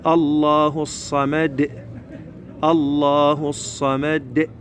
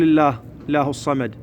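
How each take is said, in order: First: Slow recited "Allah" with thick L in الله; heavy L, bounced dal. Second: الله started wrongly as thin "illah", at talking speed; wrong light L. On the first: Teacher models how the verse begins, heavy L. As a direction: chant it slowly, full الله, bounced د ending الصمد. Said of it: "شلون نقول؟". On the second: Teacher shows how not to begin the verse, light L. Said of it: "ما نقول". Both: Shown as a demonstration.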